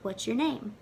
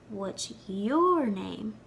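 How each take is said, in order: First: The stress falls on the word 'name'. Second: The stress falls on the word 'your'. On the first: A plain first question asking for the name. "they asked" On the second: The same question turned back to the other person. "With vocal emphasis on your"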